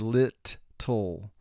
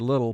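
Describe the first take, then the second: First: The word is split with both t sounds exaggerated. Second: The word is said smoothly, as in conversation. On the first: This form helps with spelling the word. "but for spelling we will say lit-tle" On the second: This is the everyday conversational form. "In con- pronunciation and conversation we say little"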